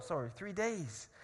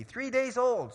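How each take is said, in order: First: Fix the slip calmly; quick correction. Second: Said in the usual way. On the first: Real, not acted.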